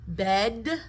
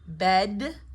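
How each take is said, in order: Both takes have the same delivery.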